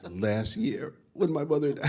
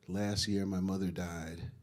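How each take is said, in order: First: It is said with heavy, exaggerated emotion. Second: It is said plainly, with little emotion.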